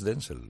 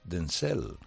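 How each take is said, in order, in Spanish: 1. El acento está en la primera sílaba. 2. El acento está en la segunda sílaba. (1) "No es Denzel" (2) "es Denzel Washington"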